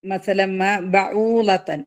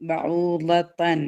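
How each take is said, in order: First: Slow recited phrase; tajweed recitation; Quran recitation. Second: Slow tajweed repeat; slow recited repeat. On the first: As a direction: chant it with the nasal merge. Recites showing idgham. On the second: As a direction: draw the word out gently. Repeats word slower, softer. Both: Shown as a demonstration.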